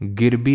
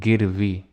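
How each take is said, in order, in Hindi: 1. बीच का व्यंजन b ध्वनि है। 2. बीच का व्यंजन v ध्वनि है। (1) "गिरबी नहीं"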